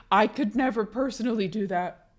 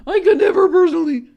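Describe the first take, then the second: First: Said in the usual way. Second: High, loud put-on voice; exaggerated mocking squeal of a repeat. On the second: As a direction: parrot it back in a loud, high-pitched voice. Mockingly repeats own statement.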